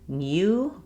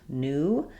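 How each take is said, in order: First: A y sound comes before the oo vowel. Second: The oo vowel follows without a y sound. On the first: The speaker calls it wrong. "it's not new" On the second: The speaker calls it right. "but rather just new"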